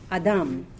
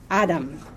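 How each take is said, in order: First: The stress is on the last syllable. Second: The stress is on the first syllable. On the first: It is the Hebrew word for man or mankind. "The stress is on the second or the last syllable" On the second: It is the English proper name. "Adam in English"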